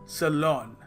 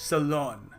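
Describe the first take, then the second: The two takes are said the same way.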